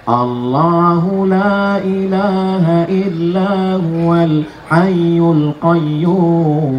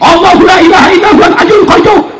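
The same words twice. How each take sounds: First: It is recited softly and slowly, without force. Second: It is recited loudly and forcefully, with strength.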